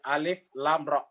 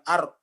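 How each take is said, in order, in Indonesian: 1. Setiap nama huruf diucapkan terpisah, satu per satu. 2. Huruf-hurufnya digabung menjadi satu suku kata pendek. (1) "tetapi alif lam ra" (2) "Jadi bukan ar"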